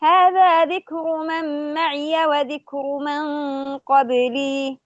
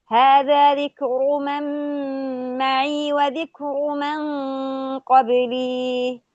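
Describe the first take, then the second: First: "معي" recited as ma'iya with open ya, slow chant; Hafs reading. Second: "معي" recited as ma'i with silent ya, slow chant; "معي" without fatha on the ya, slowly intoned; reading with sukun. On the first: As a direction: give "معي" its fatha: ma'iya, intoned. ("معي" بفتح الياء على رواية حفص) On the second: ("معي" بإسكان الياء) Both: Shown as a demonstration. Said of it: "حفص".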